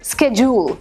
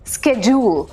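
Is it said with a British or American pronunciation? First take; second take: American; American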